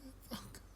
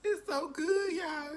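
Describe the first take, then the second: First: High whispered it's so good; breathless whisper. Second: High and loud, bursting with delight; rapturous cry. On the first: Reviewer overwhelmed by taste, breathless whisper. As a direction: fade into an awed whisper. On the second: Reviewer raving about the sandwich, high rapturous cry. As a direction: cry it out to the viewers. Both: Real, not acted. Swooning over the sauce.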